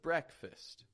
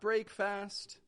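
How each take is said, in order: First: It sounds like brek-fist, with short reduced vowels. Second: It sounds like the two words break and fast. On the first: The speaker calls it right. "but breakfast" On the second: The speaker calls it wrong. "Not break fast"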